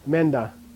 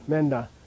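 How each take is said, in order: The two takes are said the same way.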